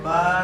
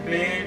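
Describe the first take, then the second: First: The letter name ends in an 'ah' vowel. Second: The letter name ends in an 'ay' vowel. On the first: This is the Arabic accent of the Quran. The speaker calls it right. "अरबी लहजा पढ़ना है कि" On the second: This is a rural accent, not that of the Quran. The speaker calls it wrong. "देहाती लहजे में ... इस तरह नहीं पढ़ना आपने"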